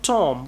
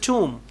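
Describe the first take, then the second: First: It is said with a short vowel, like Tom. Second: It is said with a long oo vowel, like tomb. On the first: The speaker calls it wrong. "The word is not Tom" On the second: The speaker calls it right. "We pronounced it as tomb"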